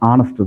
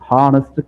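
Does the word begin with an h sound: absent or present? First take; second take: absent; present. First: The word starts with a vowel, no h sound. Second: The word starts with an audible h sound. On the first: The speaker calls it right. "ஆனஸ்ட் அப்படிங்கிறது ஆனஸ்ட் தான்" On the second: The speaker calls it wrong. "ஹானஸ்ட் கிடையாது"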